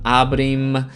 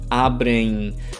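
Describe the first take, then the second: First: It ends with a full M, lips closed. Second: It ends with a soft nasal that fades. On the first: The speaker calls it wrong. "Don't say" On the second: The speaker calls it right. "kind of like an N sound that disappears"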